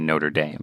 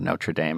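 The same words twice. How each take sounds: First: The name is said in a plain anglicized way. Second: The name is said in a French-sounding way. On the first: The speaker calls it right. "I should say Notre Dame" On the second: The speaker calls it wrong. "not Notre Dame, I sound pretentious"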